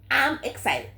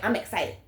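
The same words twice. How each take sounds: First: It is said in a SpongeBob-like voice. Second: It is said in her normal voice.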